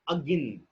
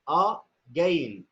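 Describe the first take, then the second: First: The first vowel is a short weak schwa. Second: The first vowel is a full vowel. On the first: The speaker calls it right. "It's again. So we are not pronouncing the sound a completely. It's short" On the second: The speaker calls it wrong. "not again"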